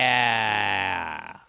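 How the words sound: It is said with a growl.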